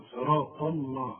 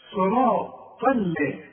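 First: صراط الله slow with a thick l; wrong heavy lam. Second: صراط ال- very slow, thick then thin l; light lam. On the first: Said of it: "في غلط هنا تقول". (صراط الله بلام مفخمة وببطء) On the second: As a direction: draw out صراط ال- onto a light l. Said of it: "إنما عدا ذلك مرققة". (صراط ال- بلام مرققة وبطء) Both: Shown as a demonstration.

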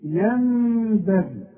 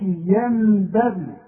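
First: ينبغي with the noon hummed as meem, slow; iqlab ghunna inside a word. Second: ينبغي with a plain clear noon, no ghunna; wrong clear noon. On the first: Teacher demonstrates one-word iqlab, slow ghunna. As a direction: stretch the nasal hum in ينبغي. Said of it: "هقول لك أمثلة كمان". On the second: Teacher mimics the mistake to avoid, plain noon. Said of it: "ما نقولش". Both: Shown as a demonstration.

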